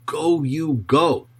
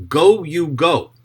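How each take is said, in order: First: "Go, you go" slowed right down and pressed hard; solemn emphatic repetition; emphatic double command. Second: Slow, heavy stress on both Go's; a commanding divine call; emphatic double command. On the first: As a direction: stretch and stress each Go. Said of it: "is used for emphasis". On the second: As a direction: drive home "Go, you go" slowly and loudly. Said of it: "the emphatic double verb ... used for emphasis". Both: Shown as a demonstration.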